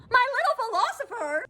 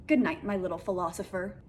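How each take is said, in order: First: Very high, mocking squeal of incredulity; appalled disbelief. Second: Said in the usual way. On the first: Real, not acted. Repeating the date's pet name to viewers, appalled. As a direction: echo it way up high, aghast.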